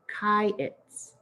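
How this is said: It is said in the southern Judah way.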